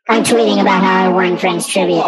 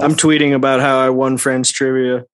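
First: It is said in a squeaky hamster voice. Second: It is said in his normal voice.

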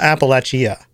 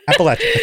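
First: The ending sounds like the word chia. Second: The ending sounds like latch-uh, as in apple. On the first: The speaker calls it wrong. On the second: The speaker calls it right.

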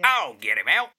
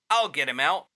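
First: It is said in a different put-on voice. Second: It is said in a plain first voice.

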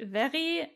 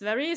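First: The name is pronounced with German sounds. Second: The name is pronounced with English sounds. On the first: "So in German, it would be Vary" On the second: "and in English, it's Vary"

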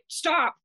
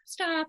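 First: The word is said firmly, with strong conviction. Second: The word is said weakly, without conviction. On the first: The speaker truly means to set the boundary. "you say, stop. And like, you really mean it" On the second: The speaker does not truly assert the boundary. "instead of saying"

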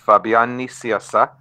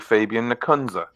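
First: The name is said with Spanish pronunciation. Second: The name is said with American pronunciation. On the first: "In Spanish" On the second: "And in American, it's usually"

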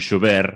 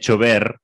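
First: The word begins with an sh sound. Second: The word begins with a ch sound. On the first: The speaker calls it wrong. "non chover" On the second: The speaker calls it right. "o CH é ch"

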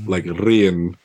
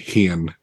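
First: The word begins with a trilled r sound. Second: The word begins with an h sound. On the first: "they enunciate their R's, like they trill their tongues a lot" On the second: "We replace the R with an H"

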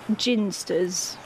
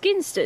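First: The word begins with a soft G, like gin. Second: The word begins with a hard G sound. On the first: The speaker calls it wrong. "It just sounds wrong as ginsters. It sounds like it's something to do with gin" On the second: The speaker calls it right. "It's ginsters"

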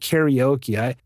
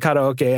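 First: It is pronounced the common English way. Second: It is pronounced the original Japanese way. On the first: The speaker calls it wrong. "I can't bring myself to always call it karaoke" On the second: The speaker calls it right. "I just have to say karaoke"

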